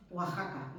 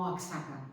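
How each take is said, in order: First: "Oaxaca" as wa-JA-ka; "Oaxaca", its X pronounced as a J. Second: "Oaxaca" as wak-SA-ka; "Oaxaca" with a K before the S; wrong KS reading. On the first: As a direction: say "Oaxaca" with a throaty Spanish J. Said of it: "se tiene que pronunciar J". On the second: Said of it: "no Oaxaca". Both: Shown as a demonstration.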